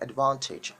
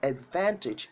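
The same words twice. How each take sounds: First: It is said with a British pronunciation. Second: It is said with an American pronunciation. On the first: "advantage is the British pronunciation" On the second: "advantage is the American pronunciation"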